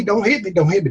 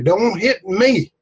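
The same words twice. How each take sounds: First: Higher, hurried don't hit me; mock begging. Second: Higher, slow don't hit me; drawn-out plea. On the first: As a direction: beg quickly like a cowering soldier. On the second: Acted. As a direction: stretch the last plea out. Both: Frightened soldier begging in story.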